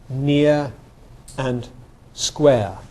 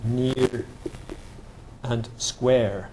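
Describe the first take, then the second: First: The vowels end without any r sound. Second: The vowels end with an audible r sound. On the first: "they're only the non-rhotic vowels" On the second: "in American you'd have you'd have near and square, like that"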